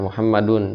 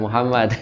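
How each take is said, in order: First: The name ends with an added 'un' sound. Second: The name ends without the 'un' sound. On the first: The speaker calls it right. "aina Muhammadun Pak" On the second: The speaker calls it wrong. "jangan Muhammad"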